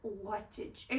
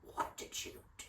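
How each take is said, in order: First: It is said in her own normal voice. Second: It is said imitating her dad's voice.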